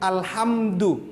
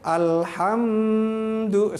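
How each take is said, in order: First: The m is closed cleanly without any nasal hum. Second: The m is held with a lingering nasal hum. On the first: The speaker calls it right. "Itu alhamdu aja sudah mim mati ketemu dal" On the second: The speaker calls it wrong. "Tidak boleh alhamdu, salah"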